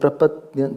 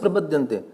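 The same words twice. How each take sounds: First: The d before ya is held and doubled. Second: The d before ya is short and single. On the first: The speaker calls it right. "There is a two. Double the is there" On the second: The speaker calls it wrong. "I did not say prapadyante"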